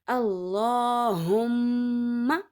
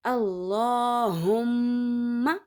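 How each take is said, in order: First: The m sound is held long through the nose. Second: The same.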